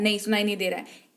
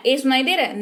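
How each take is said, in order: First: Quick, softer reply leaning on नहीं; softer, quicker take with नहीं punched; stress on नहीं. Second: Said in the usual way. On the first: Shown as a demonstration. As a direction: answer fast and hush it down, hitting नहीं.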